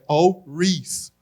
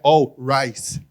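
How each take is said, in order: First: The surname does not sound like rice. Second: The surname sounds like the word rice. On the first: The speaker calls it right. "É All Rise" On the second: The speaker calls it wrong. "meu nome não é arroz, não é All Rice"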